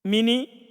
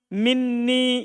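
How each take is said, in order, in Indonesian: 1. Bunyi n pendek dan tunggal. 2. Bunyi n panjang dan dirangkap. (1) "kadang diringankan yaitu tanpa nun kan ditasdid" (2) "dengan adanya nun wekoya ketemu nun sukun"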